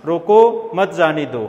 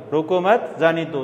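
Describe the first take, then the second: First: रोको set off by a short pause, then मत जाने दो together; pause after रोको. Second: रोको मत as one phrase, a short break, then जाने दो; pause after मत. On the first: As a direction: break right after रोको, run मत जाने दो as one phrase. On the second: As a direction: hold the comma until after मत, then say जाने दो. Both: Shown as a demonstration. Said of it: "विराम चिन्ह यहाँ की बजाय आगे लगा दीजिए".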